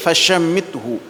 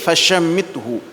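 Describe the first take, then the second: First: The middle consonant is a sh sound. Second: The same.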